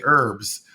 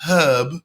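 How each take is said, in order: First: "herbs" with a silent H; American "herbs". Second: "herb" with the H sounded; British "herb". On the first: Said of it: "whereas in America we say". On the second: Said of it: "learning English from a British person". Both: Shown as a demonstration.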